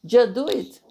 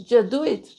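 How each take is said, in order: No difference in how they are said.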